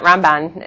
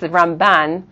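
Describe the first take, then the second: First: The stress is on the first syllable. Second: The stress is on the second syllable. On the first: The speaker calls it wrong. "It's not Ramban" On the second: The speaker calls it right. "Ramban, the accent, is on the second syllable"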